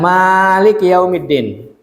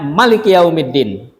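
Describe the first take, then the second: First: The first vowel of Maliki is long. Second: The first vowel of Maliki is short. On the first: This is the commonly used reading. "kalau kita kan" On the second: This is the reading attributed to the Prophet. "Ini Nabi membacanya ... tanpa alif"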